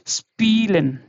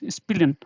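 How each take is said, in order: First: The first vowel is long. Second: The first vowel is short. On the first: The speaker calls it right. "so it should be little longer" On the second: The speaker calls it wrong. "the sound will be not like spillen spillen, not like that"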